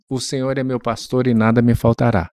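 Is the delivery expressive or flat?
flat. It is said flatly, like plain reading. The words are just read out. The speaker calls it wrong. "uma coisa é você falar assim"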